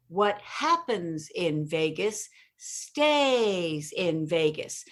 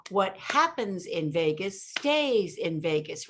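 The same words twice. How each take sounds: First: Very slow, "stays" drawn out long and stressed; stretched stays. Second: Said in the usual way. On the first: Shown as a demonstration. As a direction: drag out "stays" to show the cadence. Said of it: "so you elongate the stays". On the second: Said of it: "do you hear the inflection".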